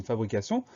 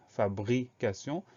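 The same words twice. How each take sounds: First: Said in the usual way. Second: "fabrication" slowly split, with bri set apart; broken into syllables. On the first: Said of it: "la syllabe sion qu'on écrit". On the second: Shown as a demonstration. Teacher showing the second syllable of fabrication, slowly split up. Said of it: "Deuxième syllabe".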